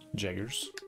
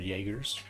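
First: The word begins with a J sound. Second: The word begins with a Y sound. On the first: The speaker calls it wrong. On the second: The speaker calls it right.

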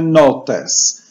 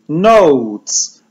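First: It is said with a Polish pronunciation. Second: It is said with an English pronunciation. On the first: "ale my wymawiamy notes" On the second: "Notes to angielskie słowo notatki"

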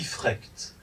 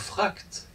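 First: The vowel is a fronted e-like sound. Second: The vowel is an open back a sound. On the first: The speaker has an accent or dialect. "mais qui dit « frecht », avec un « a umlaut »" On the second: This is the standard German of the time. "quelqu'un qui ne dit pas « fracht »"

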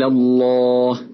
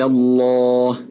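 First: The L is pronounced thick and heavy. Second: The same.

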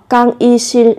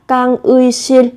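First: The middle syllable is pronounced with a plain 'i' vowel. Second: The middle syllable is pronounced with the 'ui' vowel. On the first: "hoặc là 이" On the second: "의 theo cách viết"

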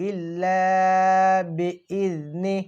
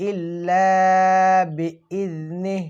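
Both takes have the same delivery.

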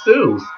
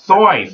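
First: The vowel does not sound like 'oy'. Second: The vowel sounds like the 'oy' in boys. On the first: The speaker calls it wrong. "many people, as you know, pronounce it Dr. Seuss" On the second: The speaker calls it right. "Seuss was actually pronounced Soyce, like to rhyme with boys"

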